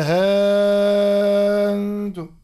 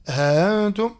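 First: ها أنتم with haa held very long and loud, replacing the hamza; long madd. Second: ها أنتم with haa short and hamza softened; eased hamza. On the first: Teacher showing Warsh's second option, ها أنتم with a very long vowel. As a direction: sustain ها on one steady loud note, then close on نتم. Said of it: "أو إبدالها حرف مد". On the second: Teacher showing Warsh's first option, ها أنتم with a softened hamza. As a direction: glide lightly through the hamza of أنتم, without a long hold. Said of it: "مع تسهيل الهمزة". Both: Shown as a demonstration.

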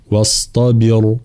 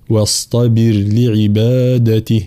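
First: واصطبر with the ر thick and heavy, the wrong way. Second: واصطبر with the ر thin and light after the kasra; correct light ra. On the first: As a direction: demo the error: واصطبر with a full-mouthed ر. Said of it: "فلا نقول". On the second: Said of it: "لا، واصطبر لعبادته هكذا". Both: Shown as a demonstration.

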